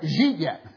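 The first words merge into one syllable. "Here's some Pittsburghese. ... One word"

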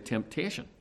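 It is said naturally, in a Northern Irish accent. "if I was to say it as I normally say temptation"

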